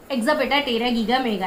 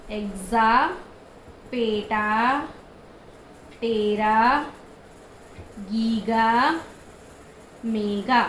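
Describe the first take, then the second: First: Rapid memory chant; fast recital. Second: Chanted, each word alone with a long pause and a rising end; chanted, space the words apart for the class to repeat; chanted, call and response, one word at a time; slow separated chant. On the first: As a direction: rattle off the whole string quickly in one breath. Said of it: "ऐसे speed में बोलना है". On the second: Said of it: "मैंने क्या बोला?". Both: Shown as a demonstration.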